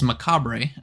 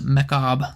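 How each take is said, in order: First: The word is said with an unusual pronunciation. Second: The word has its usual English pronunciation. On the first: The speaker calls it wrong. "we need to mispronounce it" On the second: The speaker calls it right. "it is pronounced macabre"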